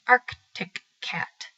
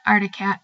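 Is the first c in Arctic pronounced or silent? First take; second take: pronounced; silent. First: The first c in Arctic is pronounced. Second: The first c in Arctic is silent. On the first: "when I would feel sassy, I would pronounce it" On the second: "it has an extra C in it that seems useless in the word"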